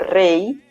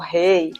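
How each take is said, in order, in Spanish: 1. La palabra empieza con un sonido de R española. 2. La palabra empieza con un sonido de R portuguesa. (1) "Como rey" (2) "como si fuera nuestra R del portugués"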